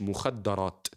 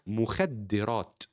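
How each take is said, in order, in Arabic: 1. الحركة بعد الدال المشددة هي a. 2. الحركة بعد الدال المشددة هي i. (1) "مش مخدرات ... اسم مفعول" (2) "الحاجة اللي بتخدر الإنسان اسمها مخدرات"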